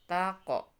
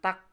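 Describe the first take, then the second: First: The Q sound is released with a light bounce. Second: The Q sound stops abruptly without a bounce. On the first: The speaker calls it right. "harus dibaca mantul" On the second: The speaker calls it wrong. "bukan tak"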